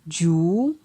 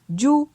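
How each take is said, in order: First: The syllable has a rising tone. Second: The syllable has a mid tone. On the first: "ton montant" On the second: "ton moyen"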